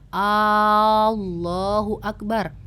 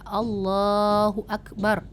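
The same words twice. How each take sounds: First: The opening vowel is drawn out long. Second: The opening vowel is short. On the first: It asks whether God is great. The speaker calls it wrong. "ketika kita membaca hamzahnya panjang pakai mat ya" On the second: It declares that God is great. The speaker calls it right. "itu artinya Allah Maha Besar"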